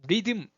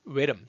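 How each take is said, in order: First: It is said with Korean sounds, ri-deum. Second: It is said with English sounds and a rounded start. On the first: The speaker calls it wrong. "우리가 말하는 리듬이에요" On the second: The speaker calls it right. "앞에 우 하듯이 하면서"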